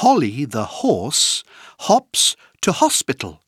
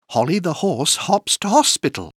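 First: The phrase is said at a moderate pace. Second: The phrase is said at a fast pace.

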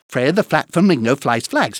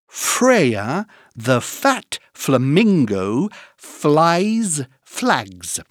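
First: It is said at a very fast pace. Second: It is said at a slow, careful pace.

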